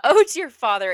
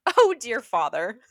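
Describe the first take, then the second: First: Composed princess retake. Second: Breaking into laughter. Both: Acted. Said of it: "This isn't that funny".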